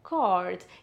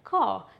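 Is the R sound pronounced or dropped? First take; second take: pronounced; dropped. First: American accent with the R clearly pronounced. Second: British accent with the R dropped.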